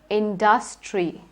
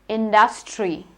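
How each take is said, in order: Both takes have the same delivery.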